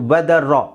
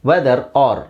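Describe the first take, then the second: First: The two words are linked into one. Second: The two words are said separately. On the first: The speaker calls it right. "ವೆದರ್ ರಾ ಅಂತ ಹೇಳಿದ್ರೆ ಸಾಕು" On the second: The speaker calls it wrong. "ಇಲ್ಲಿ ವೆದರ್ ಆರ್ ಅಂತ ಬಳಸೋ ಅವಶ್ಯಕತೆ ಇಲ್ಲ"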